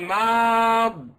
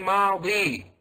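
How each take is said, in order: First: The word ends in a consonant, no final vowel. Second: The word ends in a long 'ee' vowel. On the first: The speaker calls it right. "the last letter has to be dropped" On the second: The speaker calls it wrong. "You don't say madi"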